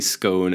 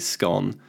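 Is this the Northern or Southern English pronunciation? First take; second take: Southern; Northern. First: It is said the Southern English way. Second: It is said the Northern English way.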